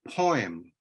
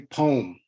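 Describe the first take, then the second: First: It is said with an oi sound, like poy-em. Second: It is said as one syllable, like pome. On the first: "like it has an oi inside it" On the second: "like an apple or pom I want to bite into, because it has an om inside it"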